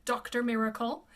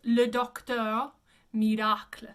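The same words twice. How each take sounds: First: Doctor Miracle with plain English vowels; English name. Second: Le Docteur Miracle as "luh dok-tur mee-rah-kl"; rounded eu in Docteur, French r in Miracle; French pronunciation. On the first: Teacher names the character before correcting it, English pronunciation. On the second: Teacher shows students the character's name, French pronunciation. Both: Shown as a demonstration. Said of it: "his name would be pronounced".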